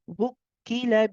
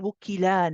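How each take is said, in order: First: The vowel is kept short, one count. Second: The vowel is stretched out long. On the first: The speaker calls it right. "keep it as one count" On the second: The speaker calls it wrong. "you don't want to say wukila now. You you don't want to be adding a mad alif"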